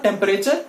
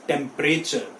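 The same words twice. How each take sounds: First: Temperature in four syllables, tem-pe-ray-chuh; wrong pronunciation. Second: Temperature in three syllables, tem-pray-chuh; correct pronunciation. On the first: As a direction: sound the middle e in temperature. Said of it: "It is not". (temperature का गलत उच्चारण, टेम-पे-रे-चə) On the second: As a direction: silent middle e in temperature. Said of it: "it is". (temperature का सही उच्चारण, टेम-प्रे-चə) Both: Shown as a demonstration.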